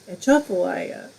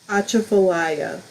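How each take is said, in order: First: The stress is on the second syllable. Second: The stress is not on the second syllable. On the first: "Accent the second syllable" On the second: "so did I not say it right?"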